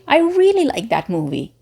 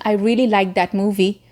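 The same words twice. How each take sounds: First: The pitch moves up and down across words. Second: The pitch stays fairly flat throughout. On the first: The speaker calls it right. "you can say" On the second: The speaker calls it wrong. "Instead of saying"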